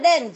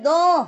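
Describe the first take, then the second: First: The final consonants are pronounced. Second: The final consonants are left silent. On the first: The speaker calls it wrong. "It's written D-E-N-T. But you don't say dance" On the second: The speaker calls it right. "you say don"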